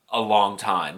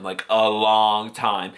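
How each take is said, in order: First: Said in the usual way. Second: "long time" stretched slow; slowly stretched "a long time"; drawn-out emphasis. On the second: Real, not acted. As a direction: drag out "a long time" to show how long.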